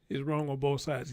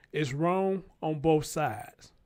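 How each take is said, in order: First: Said in the usual way. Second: Each word drawn out slowly; "It's wrong on both sides" said slowly with weight on "both"; slow emphatic. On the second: Real, not acted. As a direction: lay it down slow and firm, stressing both.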